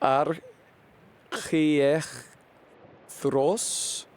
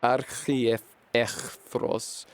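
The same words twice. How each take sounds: First: Archiechthros sounded out very slowly, syllable by syllable; slow sounding out. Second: Archiechthros said slowly with a firmer falling end; careful retry. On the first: Streamer sounding out a Greek name, very slow and unsure. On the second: Streamer retrying the Greek name, slow and settled. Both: Real, not acted. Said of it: "This shit is hard for me to say".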